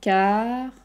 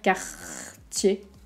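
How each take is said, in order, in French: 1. Le R se prononce doucement et légèrement. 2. Le R se prononce fort dans la gorge. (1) "Le R va pas être très fort ... Juste Cartier" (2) "On va pas dire Cartier"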